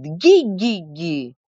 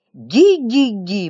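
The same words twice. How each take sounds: First: Slow squealing gi-gi-gi like a foal; slow colt-like squeals while beating. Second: Slow, louder gi-gi-gi squeal; storyteller keeps squealing like a colt, louder and slow. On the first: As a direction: squeal it out like a young horse. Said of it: "как жеребёнок, повизгивает". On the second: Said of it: "продолжал Матвей Савич". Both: A narrator's reading.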